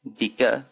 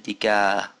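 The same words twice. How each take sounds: First: Dika ending in short uh; wrong version of dika. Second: Dika ending in open ah; right version of dika. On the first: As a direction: clip the a of dika. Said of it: "I didn't say". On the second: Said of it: "I said dika". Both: Shown as a demonstration.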